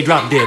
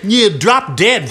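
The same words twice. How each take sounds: First: Said in the usual way. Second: Slow, drawn-out bratty insult; slow rude insult. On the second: Acted. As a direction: stretch it out to annoy. Second girl drawls again.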